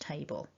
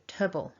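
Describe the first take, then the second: First: The vowel is a full A sound. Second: The vowel is reduced to a weak schwa. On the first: The speaker calls it wrong. "not table" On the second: The speaker calls it right. "in this word it becomes weak"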